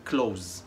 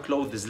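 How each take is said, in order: First: Clothes said "kloz", one syllable; correct pronunciation demo. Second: Clothes in two syllables, "clo-thiz"; common mispronunciation. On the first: Shown as a demonstration. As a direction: drop the th in "clothes", end on z. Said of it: "لا، احنا هنقولها". (clothes تتنطق "كلوز") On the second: Retold or imitated. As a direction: add an "iz" ending to "clothes". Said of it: "ناس كتيرة بتنطقها از". (clothes غلط، "كلوذِز")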